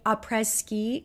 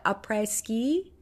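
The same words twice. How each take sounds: First: A tentative French accent on "Après Ski", said as "ah-preh ski"; French accent attempt. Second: "après ski" retried slowly in a French accent, "ah-preh", the ski rising; slower French accent retry. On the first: Vlogger naming a collab collection, attempting a French accent. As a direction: try "Après Ski" in your best French accent, unsure of it. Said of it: "I don't know if I said that in a French enough accent". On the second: Vlogger retrying the collection name, slow careful French accent. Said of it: "how'd I do? Did I do okay?". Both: Shown as a demonstration.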